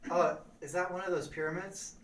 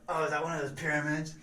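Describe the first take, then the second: First: It is asked in a sincere tone. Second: It is asked in a mocking tone.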